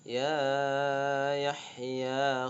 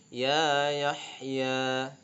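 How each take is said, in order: First: The first 'ya' is stretched too long. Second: The first 'ya' is short, two beats. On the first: The speaker calls it wrong. "kamu baca yang pertama terlalu panjang" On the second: The speaker calls it right. "yang pertama dengan yang kedua sama"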